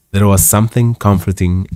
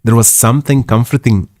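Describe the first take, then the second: First: Said in the usual way. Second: Trace of the maid's Yorkshire accent; Yorkshire dialogue accent slipping into narration, slightly lifted; lingering character accent. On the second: Real, not acted. Narrator carries on after maid's dialogue, still in Yorkshire accent. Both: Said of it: "Lose the accent".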